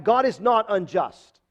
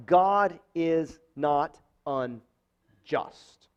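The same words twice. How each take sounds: First: Said in the usual way. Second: Very slow, each word of "God is not unjust" weighed; slow emphatic denial. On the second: Shown as a demonstration. Pastor driving the point home, slow and solemn. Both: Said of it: "It's an emphatic denial".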